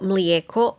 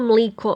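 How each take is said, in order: First: The middle vowel is a gliding ije. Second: The middle vowel is a plain i.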